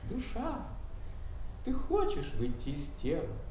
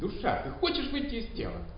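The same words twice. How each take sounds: First: It is said in a calm, gentle tone. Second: It is said in an irritated tone.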